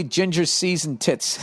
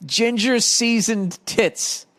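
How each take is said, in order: First: Said in the usual way. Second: Slow and higher-pitched; savoured repeat. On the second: Real, not acted. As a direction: draw each word out, pitched up. Savouring the nickname after laughing.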